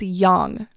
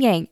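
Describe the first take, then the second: First: The word is said with a Chinese pronunciation. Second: The word is said with an American pronunciation. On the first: The speaker calls it right. "It's yang" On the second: The speaker calls it wrong. "Why are you all saying yang?"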